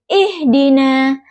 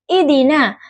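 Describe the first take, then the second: First: The h sound is clearly pronounced. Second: The h sound is too weak to hear. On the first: The speaker calls it right. "ihdina dengan H yang jelas" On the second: The speaker calls it wrong. "pengucapan H yang terlalu lemah sehingga terdengar seperti idina"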